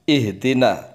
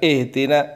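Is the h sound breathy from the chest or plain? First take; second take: from chest; plain. First: The h is breathed from the chest. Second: The h is not breathed from the chest. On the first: The speaker calls it right. "H itu di dada" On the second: The speaker calls it wrong. "jangan ihdina, ihdina kurang"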